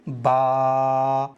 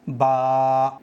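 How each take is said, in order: First: The vowel ends by trailing off with air. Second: The vowel ends with a sharp glottal stop. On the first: The speaker calls it right. "हमजा को नहीं पढ़ना, हवा में छोड़ दो" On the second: The speaker calls it wrong. "Last में हमजा की आवाज आ रही है"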